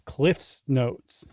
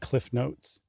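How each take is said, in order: First: An s sound follows Cliff. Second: There is no s sound after Cliff. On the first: The speaker calls it right. "It's Cliff's Notes" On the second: The speaker calls it wrong. "It's never been Cliff Notes"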